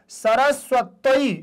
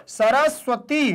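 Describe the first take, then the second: No difference in how they are said.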